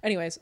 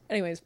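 No difference in how they are said.

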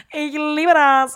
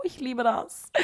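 First: Loud, high, drawn-out cry of love; hammed-up outburst. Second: Higher-pitched, gushing aside at normal volume. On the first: Podcaster confessing her Q-tip addiction, hammed-up loud outburst. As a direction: belt it out slowly, over the top. Over-the-top outburst about Q-tips. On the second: Pretend. Podcaster confessing her love of Q-tips, gushing. Mock confession, repeated much louder next.

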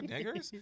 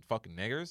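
First: Mock puzzled question. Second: Said in the usual way. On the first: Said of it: "That's how they said it". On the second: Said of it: "They're like".

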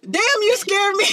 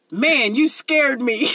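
First: Put-on high, blunt exclamation in the kid's everyday talk; hallway talk. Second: Put-on slow, drawn-out, careful quote of a kid; code-switched kid. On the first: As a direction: blurt it the uncensored hallway way, pitched way up. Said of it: "we have heard how you talk in the hallways". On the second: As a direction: imitate a kid cleaning up his language, slowly. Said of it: "he trying to tell us how he code switched".

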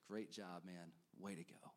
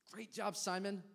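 First: Low, soft, tender approval; a gentle pat on the back; quiet praise. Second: High, bright cheer for Simon; enthusiastic praise. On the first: Retold or imitated. Jesus imagined praising Peter, soft tender approval. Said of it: "I can imagine Jesus". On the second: Real, not acted. Preacher praising Simon Peter, high excited cheer. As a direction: cheer him on like a proud coach.

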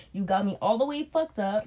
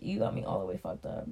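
First: Said in the usual way. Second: Low, breathy, half-voiced aside; a hushed disbelieving mutter; muttered under breath. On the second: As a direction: say it almost to yourself, unvoiced and lower. Repeating the line under his breath.

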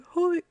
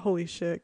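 First: Much higher, louder thrilled yelp; excited exclaim. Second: Said in the usual way. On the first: Retold or imitated. Friend thrilled at the microphones, high excited yelp. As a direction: squeal it like a delighted fourth grader. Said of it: "she was so happy".

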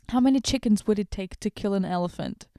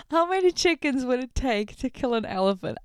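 First: Said in the usual way. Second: Stunned, mocking repeat of the question; incredulous reread. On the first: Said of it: "repeats question". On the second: Shown as a demonstration. Vlogger rereads the silly question in disbelief.

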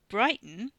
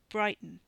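First: Louder, questioning BRIGHTON; incredulous echo. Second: Said in the usual way. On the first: Acted. Man doubting his companion's memory of their plan, incredulous. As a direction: throw "Brighton" back as a disbelieving question.

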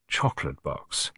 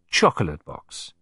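First: Softer, lower and gentle; murmured gently. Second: Said in the usual way. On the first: Acted. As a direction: murmur it gently as a teasing reminder. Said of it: "I murmured gently". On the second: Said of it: "you shall say to me".

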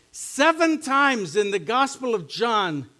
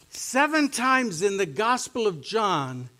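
No difference in how they are said.

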